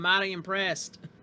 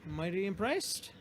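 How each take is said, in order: First: It is said in a Southern American accent. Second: It is said in the speaker's plain accent. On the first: The speaker calls it right. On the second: The speaker calls it wrong.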